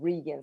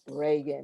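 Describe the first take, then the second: First: The name does not sound like the president's. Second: The name sounds like the former president's name. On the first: The speaker calls it right. "instead of Regan" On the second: The speaker calls it wrong. "it comes out like Reagan"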